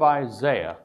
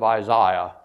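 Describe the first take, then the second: First: The name is said in an ordinary accent. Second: The name is said in an English accent.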